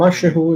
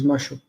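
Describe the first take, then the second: First: The word is said in full, three syllables. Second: The middle syllable is dropped, leaving two. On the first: "Mashehu is mashu" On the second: "In modern speech, mashu"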